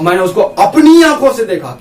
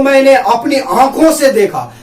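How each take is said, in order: First: अपनी pushed out firmly with a falling tune; stress on अपनी. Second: Said in the usual way. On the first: Shown as a demonstration. Teacher shows students the stress falling on अपनी. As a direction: hit the word अपनी. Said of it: "ये यहाँ पर जोर दे रहा". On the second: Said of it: "आप किसको बोलेंगे?".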